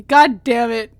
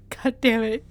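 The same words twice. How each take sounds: First: Loud curse. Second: Said in the usual way. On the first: Real, not acted. Repeated curse, first louder.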